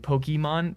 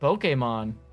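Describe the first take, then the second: First: The first part sounds like 'pokey'. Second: The first part sounds like 'poke'. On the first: The usual everyday pronunciation. "instead of like pokey" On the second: The way fans of Japanese culture say it. "they like pronounce the poke"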